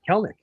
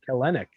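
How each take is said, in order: First: The name is said with two syllables. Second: The name is said with three syllables. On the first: The speaker calls it right. "That second E is silent" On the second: The speaker calls it wrong. "A lot of people have been saying"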